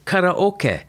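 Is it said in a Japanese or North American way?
Japanese. It is said with Japanese pronunciation.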